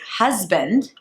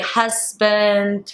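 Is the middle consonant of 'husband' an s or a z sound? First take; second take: z; s. First: The middle consonant is a buzzing z sound. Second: The middle consonant is a hissing s sound. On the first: The speaker calls it right. "as a z sound as the word husband" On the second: The speaker calls it wrong. "you immediately switch it to the closest thing ... which is an S. So you'll say husband"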